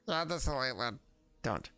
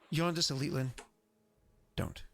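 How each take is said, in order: First: It is said in a put-on character voice. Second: It is said in the speaker's ordinary voice.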